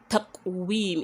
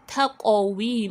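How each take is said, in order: First: The q sound is closed with no bouncing echo. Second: The q sound is released with a bouncing echo. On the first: The speaker calls it wrong. "not just taqwim" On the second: The speaker calls it right. "You made the qalqala there"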